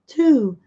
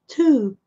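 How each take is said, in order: Both takes have the same delivery.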